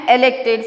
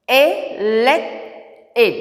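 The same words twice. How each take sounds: First: Said in the usual way. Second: "Elected" slowly split into e, lect, ed; syllable by syllable. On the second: Shown as a demonstration. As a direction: separate each syllable of "Elected" with pauses. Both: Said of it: "Now I am splitting the words".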